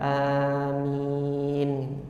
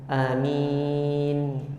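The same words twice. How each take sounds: First: Both vowels are held long. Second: Only the second vowel is held long. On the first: "hamzahnya dimatkan uh, dan kemudian mimnya di, dimatkan juga atau dipanjangkan" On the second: "hamzahnya dipendekkan dan mematkan, memanjangkan minnya"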